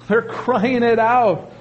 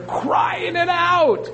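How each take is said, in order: First: Said in the usual way. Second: High, slow preached exclamation; preacher's raised cry; preaching cry. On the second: Real, not acted. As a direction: ring it out slowly from the pulpit.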